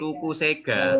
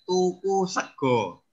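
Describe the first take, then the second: First: The final vowel sounds like a. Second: The final vowel sounds like o. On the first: The speaker calls it wrong. "tulisannya tuku sega" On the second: The speaker calls it right. "yang benar membacanya adalah tuku sego"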